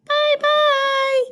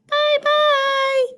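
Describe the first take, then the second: First: It is said in a high, squeaky voice. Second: The same.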